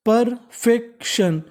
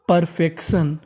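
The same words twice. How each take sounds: First: perfection drawn out slowly, part by part; slow syllable by syllable. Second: Said in the usual way. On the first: Shown as a demonstration. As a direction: model perfection slowly for the class. (धीरे-धीरे शब्द तोड़कर) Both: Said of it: "तो meaning बन गई".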